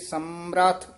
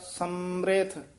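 First: The second syllable has an 'a' vowel. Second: The second syllable has an 'i' vowel. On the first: "इत्थे समर्थ" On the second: "मम्मे नु सियारी होएगी फिर समृथ"

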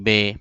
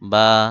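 First: The letter name ends in an 'e' vowel. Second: The letter name ends in an 'a' vowel. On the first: The speaker calls it wrong. "এটা হলো উর্দু উচ্চারণ। এই উর্দু উচ্চারণ করা যাবে না" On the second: The speaker calls it right. "বরং বলতে হবে কি বা"

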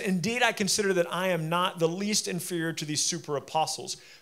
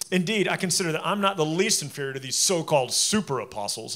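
First: It is read in a plain, neutral tone. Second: It is read in a mocking, sarcastic tone.

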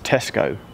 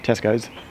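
First: The name ends without an s sound. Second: The name ends with an added s sound. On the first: The speaker calls it right. "There's no S. It's Tesco" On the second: The speaker calls it wrong. "What did I say? Tesco's"

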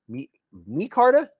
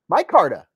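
First: The first syllable sounds like 'me'. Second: The first syllable sounds like 'my'.

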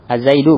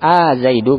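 First: The opening vowel is short. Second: The opening vowel is drawn out long.

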